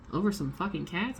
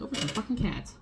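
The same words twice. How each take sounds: First: "Over some fucking cats" rising as a disbelieving question; imitated disbelief on "Over some fucking cats", ending upward; incredulous question. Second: "Over some fucking cats" pitched high, falling at the end; retold answer, "fucking" high and "cats" falling; echoed confirmation. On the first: Cop's incredulous question, retold. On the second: Her echo confirming the question.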